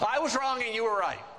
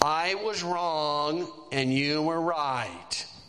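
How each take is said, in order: First: It is said cheerfully, with a good attitude. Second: It is said grudgingly, with a sigh.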